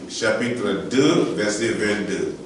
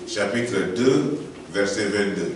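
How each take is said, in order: Both takes have the same delivery.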